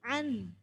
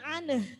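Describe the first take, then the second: First: The word ends cleanly on the n sound. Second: The word ends with an extra vowel after n. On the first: The speaker calls it right. "Jadi annya itu nonnya dibaca dulu" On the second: The speaker calls it wrong. "Bukan aneh. Tadi jangan aneh gitu"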